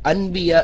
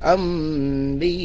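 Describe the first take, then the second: First: The nasal before b is an n sound. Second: The nasal before b is an m sound. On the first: "ഇവിടെ അൻബിയ എന്നുണ്ടാവുക" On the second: "സാക്കിനായ നൂനെ മീമാക്കി അംബിയ ഇങ്ങനെ മണിച്ചു ഉച്ചരിക്കുന്നതിനെ"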